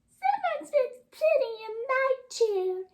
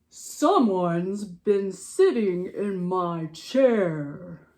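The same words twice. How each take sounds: First: It is said in Baby Bear's voice. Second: It is said in Papa Bear's voice.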